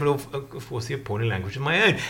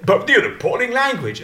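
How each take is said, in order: First: Low, soft, quick concession; deadpan Cummings. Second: Higher-pitched mock disapproval; pompous barrister. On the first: Retold or imitated. Adviser answering about his own appalling language, low and unbothered. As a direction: concede it quietly with no fuss. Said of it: "And Cummings has said". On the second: Pompous barrister challenging the adviser on his language, mildly affronted. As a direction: lightly act the affronted lawyer. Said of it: "one of these pompous barristers".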